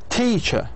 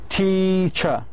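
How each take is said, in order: First: The stressed syllable is said on higher pitch. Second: The stressed syllable is longer, higher and louder. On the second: "So all three combined together"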